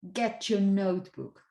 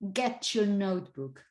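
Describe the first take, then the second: First: The t and y merge into ch. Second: The t and y merge into ch.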